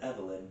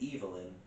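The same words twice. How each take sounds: First: The first syllable sounds like 'ev'. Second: The first syllable sounds like 'eve', as in evil. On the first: It is just the name. "So it's just said Evelyn" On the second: It could mean evil is inside. "but pronounced it Evelyn, so it could mean evil in"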